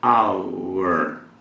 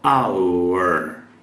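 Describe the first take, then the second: The two takes are said the same way.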